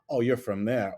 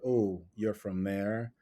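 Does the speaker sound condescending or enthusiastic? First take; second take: enthusiastic; condescending. First: The tone is warm and enthusiastic. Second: The tone is cool and condescending. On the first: The speaker finds the origin interesting. The speaker calls it right. "I bet you got some awesome stories" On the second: The speaker looks down on the origin. The speaker calls it wrong. "you can sense the condescending tone"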